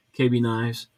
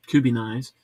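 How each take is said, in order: First: K B Knives said as two letters, KAY BEE; brand spelled as letters. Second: Kubi Knives read as one word, KOO-bee; brand said as a word. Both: Shown as a demonstration.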